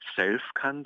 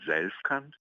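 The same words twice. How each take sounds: First: The first S is voiceless, like a hiss. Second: The first S is voiced, like a buzz. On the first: The speaker calls it wrong. "nicht Selfkant" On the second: The speaker calls it right. "mit stimmhaftem S, ganz wichtig"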